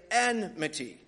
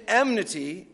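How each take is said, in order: First: Enmity said carefully as EN-mity, n before m; correct pronunciation. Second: Enmity slipped into EM-nity, m before n; mispronunciation. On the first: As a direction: put the n first in enmity: EN-mity. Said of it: "The N has to go first". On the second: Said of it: "I'm actually trying to say enmity". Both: Shown as a demonstration.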